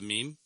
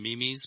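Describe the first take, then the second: First: It is pronounced the standard way. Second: It is pronounced following its spelling. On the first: The speaker calls it right. "but it's a meme" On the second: The speaker calls it wrong. "I call them memes because that's the way it's spelled"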